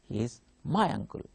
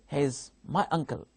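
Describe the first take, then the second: First: The stress falls on the word my. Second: The stress falls on the word uncle. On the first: He is not someone else's uncle. "my stress will be on my" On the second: It is a plain statement of fact. "Here, stress is on uncle"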